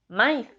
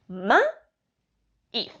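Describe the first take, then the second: First: The two vowels merge into one syllable. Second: The two vowels fall in separate syllables. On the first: The speaker calls it wrong. "no decimos maíz" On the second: The speaker calls it right. "decimos ma-iz"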